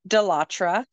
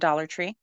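First: The name is run together with a fancy, French-style ending. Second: The name is said as two plain, ordinary words. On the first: The store is made to sound upscale. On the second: The store is named in the ordinary way.

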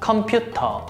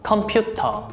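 First: It is said with Korean pronunciation. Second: It is said with Korean pronunciation.

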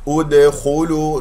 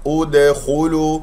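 Both takes have the same delivery.

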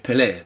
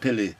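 First: The stress is on the final syllable. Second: The stress is on the first syllable. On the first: The speaker calls it right. "we say Pele because the accent on the E" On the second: The speaker calls it wrong. "instead of saying Pele"

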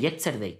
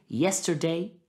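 First: It is said with a strong Spanish accent. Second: It is said with a natural English accent. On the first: The foreign language has not yet been absorbed. The speaker calls it wrong. "Mi lengua española dice yesterday" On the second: The foreign language has become part of one's own speech. The speaker calls it right. "puedas decir yesterday ... de forma natural"

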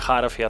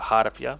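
First: The middle consonant is an F sound. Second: The middle consonant is a P sound. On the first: The speaker calls it wrong. "Nie harfia" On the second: The speaker calls it right. "tylko harpia"

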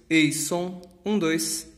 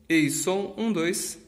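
The two takes are said the same way.

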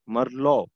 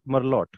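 First: The final t sound is silent. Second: The final t sound is pronounced. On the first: The speaker calls it right. "the last letter of the word is always silent" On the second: The speaker calls it wrong. "not Merlot"

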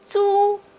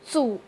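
First: The pitch stays high and level. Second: The pitch dips low, then rises. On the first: "我们把租的四声也来读一下" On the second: "它的三声是组"

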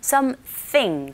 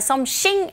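First: The final -thing is scraped in the throat. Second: The final -thing is said plainly, without scraping. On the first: The speaker calls it right. "something 긁어주셔야 된다는 거" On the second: The speaker calls it wrong. "그냥 something 아니고"

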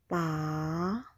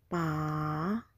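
First: The pitch falls and then rises. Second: The same.

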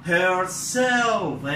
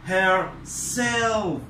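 Both takes have the same delivery.

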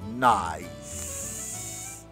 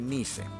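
First: The vowel sounds like 'ai', as in 'eye'. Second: The vowel sounds like 'ee', read letter by letter. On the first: The speaker calls it right. "aquí es nice" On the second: The speaker calls it wrong. "no pronuncie nice"

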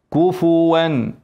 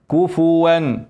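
Both takes have the same delivery.

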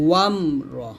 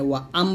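First: 'Wa' runs smoothly into 'mra' without a catch. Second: A glottal catch separates 'wa' from 'am'. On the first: The speaker calls it right. "ওয়াম র এরকম বলতে হবে" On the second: The speaker calls it wrong. "ওয়া আম বলবেন না, আমরা অনেকে এখানে হামজা উচ্চারণ করি"

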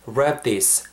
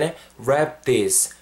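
First: The two words run smoothly together. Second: The two words are said separately.

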